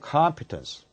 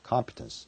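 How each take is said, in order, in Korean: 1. 첫 음절에 강세가 있어요. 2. 첫 음절에는 강세가 없어요. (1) "오의 액센트가 있기 때문에" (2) "competence가 아니고"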